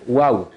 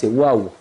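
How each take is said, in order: No difference in how they are said.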